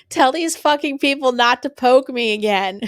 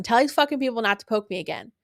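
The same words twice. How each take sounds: First: Retold demand. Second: Said in the usual way. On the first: Retold demand after being poked.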